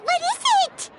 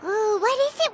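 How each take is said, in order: First: Higher, eager pleading repeat. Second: Said in the usual way. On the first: Acted. Begging the designer to say what help she needs, eager and higher. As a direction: bounce on it, impatient to know.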